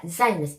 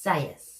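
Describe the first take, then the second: First: Zayas fumbled as "ZAY-nus"; stumbled name. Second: Zayas said "ZAY-us", no n; corrected name. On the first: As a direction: trip over Zayas with an extra n. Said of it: "I can never say her name". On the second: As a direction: settle on Zayas as ZAY-us, tentatively. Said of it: "I think it's Zayas". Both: Shown as a demonstration.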